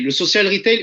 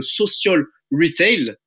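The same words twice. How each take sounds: First: Said in the usual way. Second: "social retail" in an English accent. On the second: Shown as a demonstration. Presenter naming the business model to webinar viewers, playful English accent. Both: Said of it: "avec mon magnifique accent anglais".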